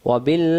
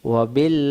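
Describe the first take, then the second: No difference in how they are said.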